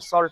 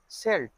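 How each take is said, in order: First: The vowel sounds like the one in 'saw'. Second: The vowel sounds like the one in 'sell'. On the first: "सॉल्ट बोलते हैं" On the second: "हम सेल्ट तो नहीं सुने"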